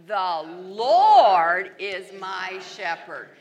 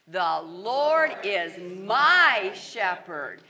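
First: The word Lord is stressed. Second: The word my is stressed.

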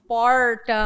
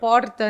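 First: It is said in the interior caipira accent. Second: It is said in the São Paulo city accent.

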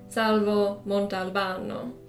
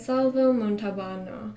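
First: The name is said with an Italian accent. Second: The name is said with an anglicized English accent.

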